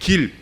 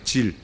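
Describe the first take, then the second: First: The word begins with a hard g sound. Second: The word begins with a j sound. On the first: This is the common standard form. "우리가 흔히 길" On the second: This is a regional dialect form. "사투리인지 몰라도 질이라고 하는 데가 있잖아요"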